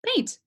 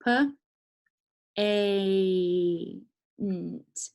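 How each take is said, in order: First: "paint" quick, high, in one syllable; blended word. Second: "P, A, N, T" as separate sounds with a long "A"; sounding out. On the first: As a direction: snap "paint" together and pitch it up. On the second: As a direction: stretch the "A", then add "N, T". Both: Shown as a demonstration. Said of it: "let's try the other one".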